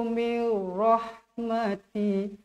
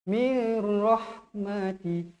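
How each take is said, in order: No difference in how they are said.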